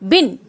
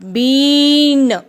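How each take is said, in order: First: The vowel is kept short. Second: The vowel is drawn out long. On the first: The speaker calls it right. "छोटी ई की मात्रा की छोटी sound आती है" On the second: The speaker calls it wrong. "ऐसे नहीं बोलना"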